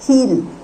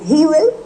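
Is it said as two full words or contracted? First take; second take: contracted; full. First: It is said as one contracted syllable. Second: It is said as two full words.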